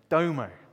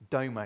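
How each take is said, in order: First: The word is said with a cool, rhythmic swagger. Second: The word is said in a plain, neutral way.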